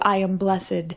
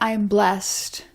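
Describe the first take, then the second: First: Blessed is said as two syllables. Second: Blessed is said as one syllable. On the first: An older, biblical-style use of the word. "as opposed to" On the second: An everyday, modern use of the word. "But you might say, I am blessed. You really blessed me"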